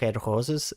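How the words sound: The R sounds are given a German accent. "they say red roses"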